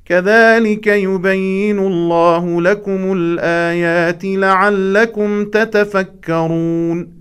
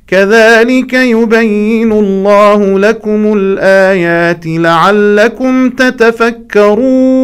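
First: Slow recitation dropping to a closed final cadence on تتفكرون; wrong closing tune. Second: Higher, louder, slow chant held open on تتفكرون; suspended ending. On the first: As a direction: end تتفكرون with a falling, finished tune, drawn out. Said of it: "لا نقرأ هكذا". (قفلة نغمية خاطئة على تتفكرون) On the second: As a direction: keep تتفكرون hanging high as if more follows. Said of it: "يجب أن نقرأ هكذا". (قفلة انتظارية على تتفكرون) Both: Shown as a demonstration.

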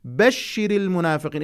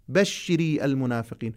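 First: بشر said short, no vowel after the r; correct stress on بشر. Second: بشري said with a long i at the end, as if to a woman; wrong feminine form. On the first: Teacher models the right stress of بشر for the masculine address. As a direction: land firmly on بشر and stop on the r. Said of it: "إذا قلت بشر المنافقين كأنما الخطاب موجه للأنثى". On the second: Teacher demonstrates the wrong feminine reading of بشر. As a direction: stretch بشر into بشري to show the error. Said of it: "كأنما الخطاب موجه للأنثى". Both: Shown as a demonstration.

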